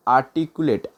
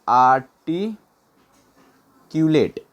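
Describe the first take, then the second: First: Said in the usual way. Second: आर्टिक्यूलेट very slow, a long gap before culotte; broken up slowly. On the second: Shown as a demonstration. Teacher having learners write it down, आर्टिक्यूलेट in slow pieces. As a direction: stretch आर्टिक्यूलेट out in separate pieces. Teacher breaks word for note-taking.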